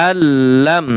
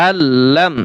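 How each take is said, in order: Both takes have the same delivery.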